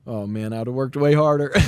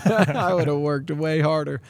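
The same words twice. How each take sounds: First: Said in the usual way. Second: Laughing. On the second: Real, not acted. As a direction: repeat it through a laugh, slower and higher. Repeating himself with a laugh.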